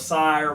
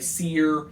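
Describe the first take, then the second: First: The vowel sounds like the word 'sire'. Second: The vowel sounds like the word 'seer'. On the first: The speakers have chosen to pronounce the name this way. "we're going with sire. We think it sounds better" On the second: Some other people pronounce the name this way. "Some people say seer"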